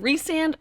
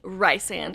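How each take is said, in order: First: The first syllable sounds like the name Rhys. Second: The first syllable does not sound like Rhys. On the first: The speaker calls it right. "It has been Rhysand from day one" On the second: The speaker calls it wrong. "How dare you accuse me of saying Rysand?"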